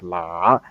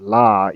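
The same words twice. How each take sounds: First: It carries a questioning intonation on the tone. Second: It carries the plain tone of the written form. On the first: The speaker calls it right. "It's more like la, and that's kind of this question intonation" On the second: The speaker calls it wrong. "the intonation they use is not la, even though it's kind of written"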